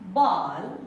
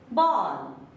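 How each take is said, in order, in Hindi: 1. यह स्वर 'aa' और 'o' के बीच की ध्वनि है। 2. यह स्वर 'aa' और 'o' के बीच की ध्वनि है।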